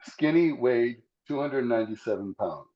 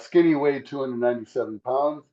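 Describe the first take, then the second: First: It is spoken slowly. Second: It is spoken at a normal speed.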